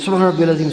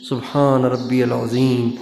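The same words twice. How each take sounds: First: It is said quickly, rushed. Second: It is said slowly, unhurried.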